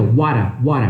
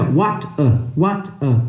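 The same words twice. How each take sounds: First: "what a" said fast with the t turning into a flapped r, "wara"; fast linked "what a". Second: "what a" with a clear t, the two words kept apart; "what a" said separately. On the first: Teacher showing students the fast American "what a", t flapped to an r. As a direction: run "what a" together so the t flaps. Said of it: "Quando você fala rápido". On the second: Teacher showing students "what a" said separately with a clear t. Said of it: "eu vou falar separado". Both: Shown as a demonstration.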